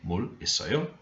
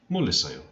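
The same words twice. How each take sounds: First: It is asked as a question, rising at the end. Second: It is said as a statement, falling at the end.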